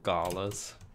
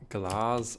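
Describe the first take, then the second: First: The word is sounded out as it is spelled. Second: The word has its usual spoken pronunciation. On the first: The speaker calls it wrong. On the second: The speaker calls it right.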